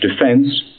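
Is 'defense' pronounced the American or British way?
British. It is pronounced the British way. "British defense"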